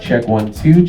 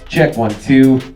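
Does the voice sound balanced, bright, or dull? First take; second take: dull; balanced. First: The voice has very little high end. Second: The voice has an even, flat tone. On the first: "right now you should not be able to hear much high end coming from my voice" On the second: "we have a flat E Q"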